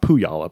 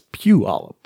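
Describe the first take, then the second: First: It begins with 'poo', then a 'y' sound. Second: It begins with 'pyoo', the 'y' before the vowel. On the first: The speaker calls it wrong. "it's not Puyallup" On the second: The speaker calls it right. "you kind of say it with the Y before the U"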